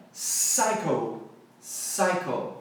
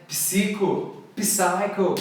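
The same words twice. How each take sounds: First: "psycho" as SIGH-ko, no P; silent P. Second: "Psico, psycho" with the P sounded, pee-SEE-ko, pee-SIGH-ko; wrong pronunciation. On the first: Teacher models "psycho" for learners, P left silent. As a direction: drop the P and open "psycho" on S. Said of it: "tirar o P da pronúncia". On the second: Teacher shows learners' mistake, "Psico, psycho" with P sounded. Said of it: "nada disso". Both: Shown as a demonstration.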